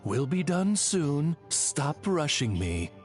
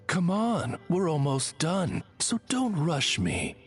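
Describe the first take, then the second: First: Slow, curt translation; cold. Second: Higher, more coaxing delivery; friendlier rephrasing. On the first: Oz translates his lady's speech for the traveler, coldly. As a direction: coldly relay a brush-off. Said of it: "that sounded a lot colder post-translation". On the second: Oz rephrases after sounding too cold, friendlier. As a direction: soften the brush-off with a higher lilt. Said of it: "Allow me to rephrase". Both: Acted.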